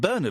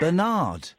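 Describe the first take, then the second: First: The name is said the British way. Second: The name is said the American way. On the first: The speaker calls it right. "they should pronounce it Bernard like we do" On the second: The speaker calls it wrong. "Do you know what Americans say instead of Bernard?"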